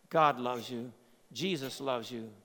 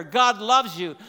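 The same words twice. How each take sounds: First: Lower, softer: "God loves you" spoken tenderly; gentle reassurance. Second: Louder, punching "loves" in "God loves you"; emphatic declaration. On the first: Preacher assuring the listeners quietly, gently tender. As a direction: let "God loves you" settle in softly. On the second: Preacher proclaiming God's love to the church, forcefully. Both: Real, not acted.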